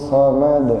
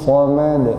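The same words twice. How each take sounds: No difference in how they are said.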